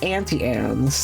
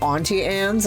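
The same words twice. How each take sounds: First: Auntie starts with the same vowel as Anne's. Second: Auntie starts with a vowel unlike that of Anne's. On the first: "They start with the same letter. They should sound the same" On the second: "I always call it Auntie Anne's, ... I grew up in New England where we say aunt"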